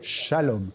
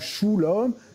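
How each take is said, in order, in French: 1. La première voyelle est le son 'a'. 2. La première voyelle est le son 'u'. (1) "c'est shalom" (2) "ou shulom"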